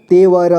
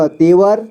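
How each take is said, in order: First: तेवर split as ते, व, र; syllable by syllable. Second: Said in the usual way. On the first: Shown as a demonstration. Teacher showing learners तेवर, sounded out in parts. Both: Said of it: "इसे पढ़ेंगे".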